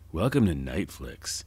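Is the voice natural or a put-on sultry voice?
sultry. It is said in a put-on, sultry voice. "I will never do that voice again"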